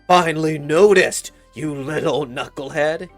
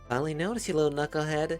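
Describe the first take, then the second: First: It is said in a hard, intense tone. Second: It is said in a light, playful tone. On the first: The father may dislike his son. "if he just says it with intensity, you know, it's scary" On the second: The remark is friendly teasing. "A little playful"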